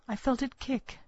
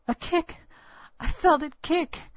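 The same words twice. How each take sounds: First: Said in the usual way. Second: High, loud, thrilled exclamation; excited cry. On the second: Acted. Young mother cries out to old woman, excited. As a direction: cry out in sudden joyful surprise. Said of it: "I clutched my belly and cried".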